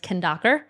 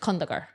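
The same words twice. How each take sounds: First: It is said with a Western English accent. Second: It is said with her native-language accent.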